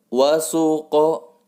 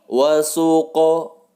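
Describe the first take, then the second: Both takes have the same delivery.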